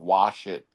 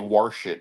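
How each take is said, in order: First: The word wash is said without an r sound. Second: The word wash is said with an r sound.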